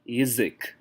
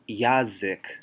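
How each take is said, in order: First: The first vowel is reduced to an 'i' sound. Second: The first vowel is a full open 'a'. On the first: The speaker calls it right. "an unstressed ya is pronounced more like y" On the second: The speaker calls it wrong. "We don't say yazik"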